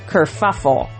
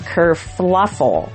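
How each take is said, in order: First: The middle syllable is said without an L sound. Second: The middle syllable is said with an L sound. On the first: The speaker calls it right. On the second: The speaker calls it wrong.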